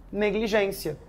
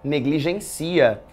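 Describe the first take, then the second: First: Negligência, stress on the gên, said soft; negligência with accent. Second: Negligencia, stress on the ci, said slowly; negligencia without accent. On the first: Teacher reading the noun form, stress on gên. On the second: Teacher reading the verb form, stress on ci. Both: Shown as a demonstration. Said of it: "Vai depender do contexto".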